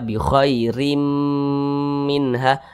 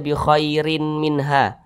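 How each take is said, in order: First: The final n merges into m, with nasal hum. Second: The final n is kept as a clear n. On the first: The speaker calls it right. "langsung dimasukkan ke huruf mim" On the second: The speaker calls it wrong. "Jangan dibaca"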